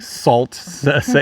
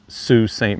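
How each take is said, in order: First: The first word sounds like 'salt'. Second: The first word sounds like 'soo'. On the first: The speaker calls it wrong. "spelled what you might say like Salt Ste. Marie" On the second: The speaker calls it right. "it is pronounced Sault Ste. Marie"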